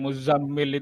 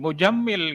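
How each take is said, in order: First: The middle consonant is a z sound. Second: The middle consonant is a j sound. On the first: "kalau bilang Muzammil itu agak susah" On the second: "larinya ke J saja"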